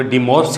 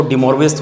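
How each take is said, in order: First: "De Morve" said as dee morve, one short syllable; shortened name. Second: "De Moivre's" said as dee mor-vee-ers; French-style name. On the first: Teacher giving students the other way people say it, carefully. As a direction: clip "De Morve" to a single clipped syllable. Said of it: "कुछ लोग De Morve theorem बोलते हैं". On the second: Teacher giving students one common way to say the name, carefully. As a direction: say "De Moivre's" with the v sounded after mor. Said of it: "कुछ लोग इसको De Moivre's theorem बोलते हैं". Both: Shown as a demonstration.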